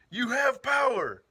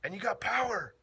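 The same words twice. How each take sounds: First: Higher, louder and slow, each word weighed; emphatic repeat. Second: Said in the usual way. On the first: Real, not acted. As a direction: drive the point home slowly.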